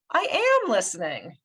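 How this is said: The stress is on "am".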